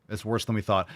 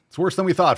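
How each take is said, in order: First: Said in the usual way. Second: Louder and higher, leaning on "we"; emphatic alarm. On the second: Real, not acted. Streamer stunned by the clip, emphatic alarm. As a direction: hit "we" hard, shocked. Shocked streamer repeats his verdict.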